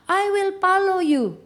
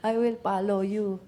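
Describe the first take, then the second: First: Loud, high-pitched mock yell; imitation of a kid yelling at the top of his voice; imitated child's shouting. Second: Said in the usual way. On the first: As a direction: mimic a furious little kid hollering. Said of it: "sigaw siya ng sigaw at the top of his voice".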